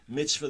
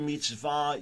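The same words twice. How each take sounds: First: The stress is on the first syllable. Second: The stress is on the last syllable. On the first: It means a good deed. "Yiddish, the colloquial pronunciation, mitzvah, the pronunciation on the first syllable" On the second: It means a commandment. "Hebrew mitzvah"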